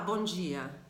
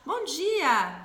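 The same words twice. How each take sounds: First: The greeting sounds curt and grumpy. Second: The greeting sounds warm and cheerful. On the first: The speaker is not in a good mood to talk. "a pessoa já vai falar ih, eu volto mais tarde" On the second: The speaker is open to talking. "é diferente eu chegar e falar bom dia"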